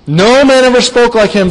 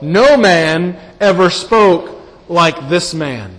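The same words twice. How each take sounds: First: "No man ever spoke like him" higher and louder, stress on "man"; bold proclamation. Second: "No man ever spoke like this man" said slowly, each word weighed, stress on "No"; slow, weighty emphasis. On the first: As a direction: ring out "man" boldly, without fear. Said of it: "With great boldness, without fear". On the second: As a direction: let "No" land slowly and heavily. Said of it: "What's the implication?". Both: Shown as a demonstration.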